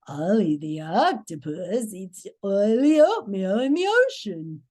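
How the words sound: It is said in a creepy voice.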